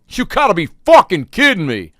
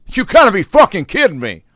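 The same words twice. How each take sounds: First: High, loud disbelieving outburst; angry outburst. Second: Angry outburst. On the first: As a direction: blow up like the guy told they're out of blizzards. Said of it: "I hear a guy in front of me say". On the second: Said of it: "he was pissed". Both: Retold or imitated.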